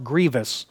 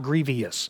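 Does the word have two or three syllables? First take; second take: two; three. First: The word is said with two syllables. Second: The word is said with three syllables. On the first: The speaker calls it right. "It's pronounced grievous" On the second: The speaker calls it wrong. "not grievous"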